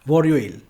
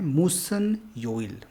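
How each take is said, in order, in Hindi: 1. दोनों शब्द जल्दी में बोलने पर जुड़कर एक हो जाते हैं। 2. दोनों शब्द अलग-अलग बोले जाते हैं, जुड़े नहीं होते।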